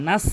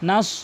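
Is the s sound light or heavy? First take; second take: light; heavy. First: The s sound is light and thin. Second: The s sound is heavy and full. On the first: The speaker calls it wrong. "নাস বলা যাবে না" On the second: The speaker calls it right. "সতের উচ্চারণ করবেন"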